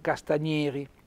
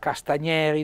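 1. La vocale E è chiusa. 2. La vocale E è aperta. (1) "non castagneri" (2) "una bella E aperta"

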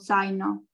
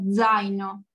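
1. La z si dice senza vibrazione sonora. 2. La z si dice con vibrazione sonora, come dz. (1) "No digo zaino o zaino" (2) "digo zaino. Tengo que hacer el zumbido"

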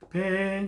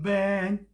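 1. b는 부드러운 한국식 b예요. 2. b는 입술로 힘 있게 내는 b예요. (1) "우리나라 만약에 비읍 같으면 벤 이렇지만" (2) "벤 이런 식으로 말하는 거야. 입술 소리 벤"

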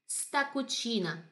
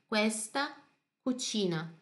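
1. A primeira sílaba de questa é omitida. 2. A primeira sílaba de questa é pronunciada por completo.

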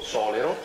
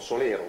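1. L'accento cade sulla vocale o. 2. L'accento cade sulla vocale e. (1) "una volta l'ha detto giusto" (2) "tutti dicono Solero"

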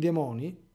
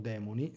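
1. La parola si pronuncia all'italiana, come di solito. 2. La parola si pronuncia alla latina.

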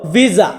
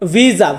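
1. এটি ইতালীয় ধ্বনি দিয়ে উচ্চারণ করা হয়। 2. এটি ইতালীয় ধ্বনি দিয়ে উচ্চারণ করা হয়।

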